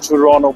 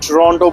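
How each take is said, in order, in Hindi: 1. दूसरी t की आवाज़ साइलेंट रहती है। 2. दूसरी t की आवाज़ साफ़ बोली जाती है। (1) "कनेडियंस टोरंटो बोलते हैं। टी is silent, the second टी is silent." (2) "American टोरंटो बोलते हैं"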